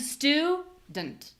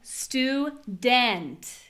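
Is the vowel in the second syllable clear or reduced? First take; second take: reduced; clear. First: The second syllable has a reduced, unclear vowel. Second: The second syllable has a clear, full vowel. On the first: The speaker calls it right. "We have an unclear vowel sound" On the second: The speaker calls it wrong. "I'm not saying student"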